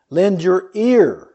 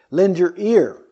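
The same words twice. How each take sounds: First: Slow, with ear drawn out and leaned on; "Lend your ear" slowly, weight falling on ear; stress on ear. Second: Ear hit firmly, falling at the end; stress on ear. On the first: Preacher reading Proverbs to the congregation, stressing ear. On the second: Preacher repeating the verse to the congregation, punching ear. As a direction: repeat "Lend your ear" with ear underlined. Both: Shown as a demonstration. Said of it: "Notice the emphasis on the ear".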